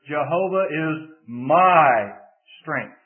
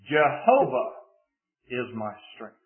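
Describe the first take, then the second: First: The word my is stressed. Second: The word Jehovah is stressed. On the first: The strength is personal to the speaker. "if you shift the emphasis to the third word" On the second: It is this particular God who is the strength. "Put the emphasis on the first word"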